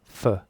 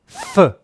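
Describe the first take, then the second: First: The consonant is said with normal, lighter force. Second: The consonant is punched out with strong force. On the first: "there's a lower peak" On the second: "there's a higher peak where I punch it"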